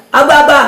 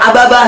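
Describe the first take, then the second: First: Mock baby babbling "Aba, aba"; baby babble. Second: Doll echoing. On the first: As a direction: babble like a small baby, lightly. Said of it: "tuh bayi bilang". (meniru ocehan bayi dengan ringan) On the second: Retold or imitated. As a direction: slightly lower toy-doll echo of "Aba, aba". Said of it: "tuh boneka juga". (meniru boneka yang menirukan bayi)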